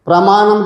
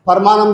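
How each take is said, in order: First: It starts with a 'pr' cluster. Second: A vowel splits it into 'par'. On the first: "ప్రమాణం చేయంటే" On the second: "పరమాణం చేస్తున్నా అంటాడు"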